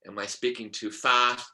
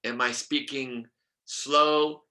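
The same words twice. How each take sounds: First: Brisker, without stretching "fast"; faster speaking. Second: Drawn-out "slow"; slow speaking. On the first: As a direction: ask it a little more briskly. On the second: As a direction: stretch the word "slow" out a little. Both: Shown as a demonstration.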